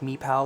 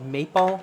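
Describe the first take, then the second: First: The name is pronounced with English vowel sounds. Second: The name is pronounced with Dutch vowel sounds. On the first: "You probably pronounce it like Meepal" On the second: "That's how we pronounce it in Dutch"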